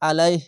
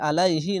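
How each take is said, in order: First: The word stops without the final vowel. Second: The word ends with a final vowel. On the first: The speaker calls it right. "এভাবে থেমে যাবেন" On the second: The speaker calls it wrong. "আলাইহি না বলে"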